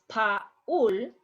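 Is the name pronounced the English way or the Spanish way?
Spanish. The vowels are pronounced Spanish-style. The speaker calls it right. "it's Paul"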